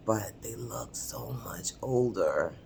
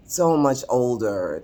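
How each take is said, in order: First: Hushed, whispered aside; confiding whisper. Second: Said in the usual way. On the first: Real, not acted. Admitting how older her peers looked, confiding whisper. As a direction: drop to a discreet whisper.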